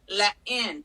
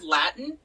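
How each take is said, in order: First: The second syllable is a clear 'in'. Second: The second syllable is reduced as usual. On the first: This is how one person pronounces it. "He says instead of Latin, let in" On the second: This is the usual pronunciation. "Instead of Latin"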